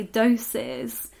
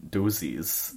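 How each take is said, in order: First: "doses" drawn out as DOH-siz; English pronunciation. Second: "dozies" said as DOO-zeez; Scottish pronunciation. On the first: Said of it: "I'd say doses". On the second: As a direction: say "dozies" with oo and a buzzing z. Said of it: "Or as I'd say, dozies". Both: Shown as a demonstration.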